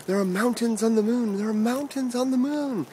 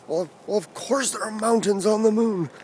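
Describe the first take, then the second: First: High, sustained mock yell; excited yelling. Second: High put-on voice of a grumbling dad; grumbling sleepy dad. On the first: Boy yelling news through parents' door, excited high mock yell. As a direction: call it out high, drawing out the last word. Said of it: "pounding on the door and yelling out". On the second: Sleepy dad answering his child through the door, mock grumbling. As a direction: imitate a roused dad grumbling back. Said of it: "dad's sleepy voice within grumbling".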